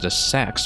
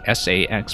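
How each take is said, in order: First: The name is said as one word. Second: The name is spelled out letter by letter. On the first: "pronounce it directly as the Sax" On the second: "or just this S A X"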